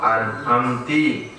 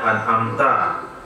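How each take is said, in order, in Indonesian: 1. Kata itu diakhiri dengan vokal 'i'. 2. Kata itu diakhiri dengan vokal 'a'.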